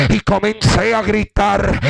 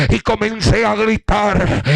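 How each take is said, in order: Both takes have the same delivery.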